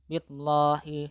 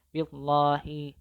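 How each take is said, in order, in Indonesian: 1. L-nya tebal dan berat, mulut penuh. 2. L-nya tebal dan berat, mulut penuh.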